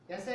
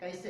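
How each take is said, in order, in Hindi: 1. पहला स्वर एक सादा, एकल स्वर है। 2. पहला स्वर सरकती हुई ai ध्वनि है। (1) "कैसे नहीं" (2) "इसमें ऐ की ध्वनि आनी चाहिए"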